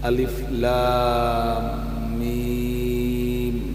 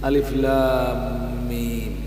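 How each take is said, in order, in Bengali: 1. অক্ষরের নামগুলো টেনে লম্বা করে পড়া হয়। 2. অক্ষরের নামগুলো ছোট ও দ্রুত করে পড়া হয়।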